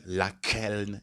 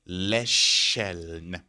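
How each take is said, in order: First: The first vowel is an 'a' sound. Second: The first vowel is an 'e' sound. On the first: The speaker calls it wrong. "Don't say lakeln" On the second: The speaker calls it right. "the pronunciation now becomes le"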